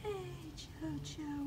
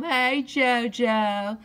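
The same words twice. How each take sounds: First: Much higher, softer and slow cooing. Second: Drawn-out loud call to the cat. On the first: Cooing to cat. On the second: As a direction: stretch it out and call him home. Calling the cat. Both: Real, not acted.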